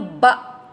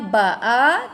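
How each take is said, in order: First: The word ends in a closed glottal stop. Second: The word ends on a full vowel. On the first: The reading stops here. "bila kita nak berhenti di situ matikan hamzah" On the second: The reading continues on. "Bacakan barisnya ba'a"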